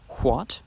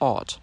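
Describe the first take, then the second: First: The word begins with a w sound. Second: The word begins directly with the vowel.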